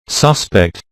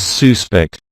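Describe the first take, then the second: First: Suspect stressed on the first syllable, SUS-pect; noun stress. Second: Suspect stressed on the second syllable, sus-PECT; verb stress. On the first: Teacher showing the noun for a possible criminal, first-syllable stress. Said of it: "noun has its word stress on the first syllable". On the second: Teacher showing the verb meaning to believe, second-syllable stress. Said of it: "the stress falls on the second syllable". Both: Shown as a demonstration.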